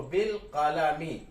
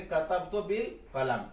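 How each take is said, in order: First: बिल कलमी drawn out slowly, ending in -mi; full case ending. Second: कलम closed on m, no final vowel; pausal reading. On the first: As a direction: sound the final i of कलमी, slowly. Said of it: "मीम के नीचे जेर आ रहा है". (बिल कलमी: मीम पर ज़ेर, ठहर-ठहर कर) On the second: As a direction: read कतबतु बिल कलम, stopping on the m. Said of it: "इसको पढ़ेंगे". (कतबतु बिल कलम: आख़िरी मीम साकिन) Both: Shown as a demonstration.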